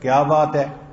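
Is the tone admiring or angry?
angry. It is said with an angry tone.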